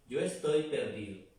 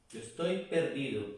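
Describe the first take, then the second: No difference in how they are said.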